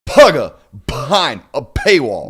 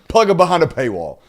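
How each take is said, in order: First: The P sounds are popped out with heavy force. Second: The P sounds are said in a plain way.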